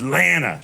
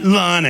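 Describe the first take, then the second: First: The offended woman's correct Lana, imitated. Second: Lana with the first vowel as in "father", voiced lightly as the comic's own version; the offended woman's lesson, first the wrong Lana. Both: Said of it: "She goes".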